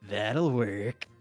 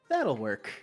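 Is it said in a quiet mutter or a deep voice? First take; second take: deep voice; quiet mutter. First: It is said in a much deeper voice. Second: It is muttered quietly under the breath.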